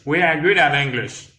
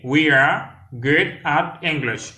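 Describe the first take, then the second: First: Words linked at a natural pace; connected demonstration. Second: Slow, separated words for learners; slow demonstration. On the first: Teacher repeats an English phrase for learners, joined up. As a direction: say it joined up, in one flow. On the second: Teacher models an English phrase for learners, slowly. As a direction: model it word by word, unhurried. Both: Shown as a demonstration.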